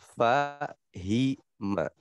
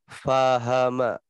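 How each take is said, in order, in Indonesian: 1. Konsonan tengah diikuti vokal i. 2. Konsonan tengah diikuti vokal a. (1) "harusnya fahima" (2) "Atau fahama"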